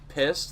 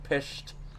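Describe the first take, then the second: First: The middle consonant is a plain s sound. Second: The middle consonant is an sh sound. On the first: "they would say pissed" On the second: "like pished"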